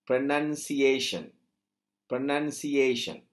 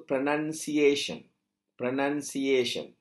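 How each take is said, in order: Both takes have the same delivery.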